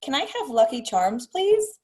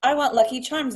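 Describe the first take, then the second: First: "please" lifted to a high rising question; polite request. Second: Demanding. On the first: Shown as a demonstration. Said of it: "And I'd say". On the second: Retold or imitated. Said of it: "started sounding very demanding".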